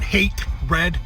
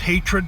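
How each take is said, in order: First: It is split into two words, hate and red. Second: It is said smoothly as one single word. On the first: Some people say the title this way. "Some people pronounce it" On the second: This is how the speaker always says the title. "I've always pronounced it hatred because that's what it adds up to"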